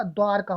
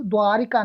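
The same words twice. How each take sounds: First: द्वारका with no i, "dwaar-ka"; correct pronunciation. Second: द्वारिका with an extra i, "dwaa-ri-ka"; wrong pronunciation. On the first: Teacher correcting students' spelling, correctly pronounced. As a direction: run r straight into ka in द्वारका. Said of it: "ई की मात्रा नहीं होती". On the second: Teacher showing students the wrong form, mispronounced. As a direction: sound the ri in द्वारिका. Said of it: "नहीं होता". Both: Shown as a demonstration.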